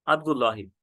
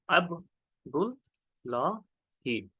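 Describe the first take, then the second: First: Said in the usual way. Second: Abdullahi very slowly, ab - dul - laa - hee; syllable by syllable. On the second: Shown as a demonstration. Teacher spells it out for students, Abdullahi in slow separate syllables.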